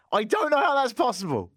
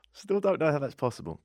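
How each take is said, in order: First: High-pitched incredulous outburst; exasperated disbelief. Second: Calmer, muted bafflement; subsiding disbelief. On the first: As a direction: exclaim it high in comic bafflement. Mock disbelief about his sister. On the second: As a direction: repeat it as the outburst dies down. Repeats disbelief after the outburst. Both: Acted.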